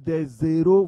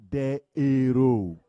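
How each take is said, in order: First: The s links as a z into the next word. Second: The words stay separate with no z sound. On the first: It sounds like the word for zeros. The speaker calls it wrong. "Quand vous dites des zéros, vous voyez, ça se confond avec zéro" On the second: It clearly means heroes. The speaker calls it right. "on dit des héros. Le H est un H aspiré"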